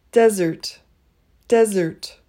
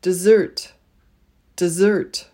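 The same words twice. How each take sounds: First: "desert" said DEZ-ert; "desert" with short E, stressed DEZ; contrasted pronunciation. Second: "dessert" said dih-ZERT; "dessert" with reduced first vowel, stressed ZERT; contrasted pronunciation. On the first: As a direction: stress the first syllable of "desert". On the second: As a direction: stress the second syllable of "dessert". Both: Shown as a demonstration.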